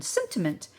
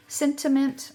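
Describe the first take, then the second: First: Said in the usual way. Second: "sentiment" said higher and louder as a fix; emphatic correction "sentiment"; corrected word. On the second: Shown as a demonstration. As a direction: stress "sentiment" to correct the slip "cinnamon". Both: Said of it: "I always like cinnamon, sentiment".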